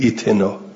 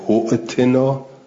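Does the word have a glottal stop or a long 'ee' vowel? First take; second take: long vowel; glottal stop. First: It starts with a long ee vowel, no glottal stop. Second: It has a glottal stop in the middle. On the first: The word begins the reading after a stop. "این ابتدعت بهی لم تهمز، باید بگید یا صالح ایتنا" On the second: The word is joined to the words before it. "ان وصلتهو همزتهو"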